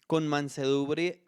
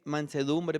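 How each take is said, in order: First: "mansedumbre" slurred and clipped to "manseré"; stumbled word. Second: Said in the usual way. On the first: Real, not acted. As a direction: swallow the middle of "mansedumbre" so it comes out "manseré". ("mansedumbre" mal pronunciado, como "manseré") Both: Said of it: "perdón".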